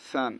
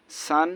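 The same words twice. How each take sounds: First: সান opening on a soft TH; soft tha. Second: সান opening on a clear hissed S; sharp sin S. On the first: Teacher repeating tha against sin, soft TH. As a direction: soften the start of সান to "th". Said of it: "সা নরম". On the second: Teacher repeating sin against tha, sharp S. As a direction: give সান a strong whistling S. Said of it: "স এরকম". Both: Shown as a demonstration.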